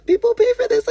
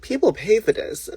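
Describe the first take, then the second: First: "People pay for this" leaped much higher and louder, PAY hit hard; emphatic high repeat. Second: Said in the usual way. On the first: Real, not acted. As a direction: hammer it home the second time, "People PAY for this", pitched way up.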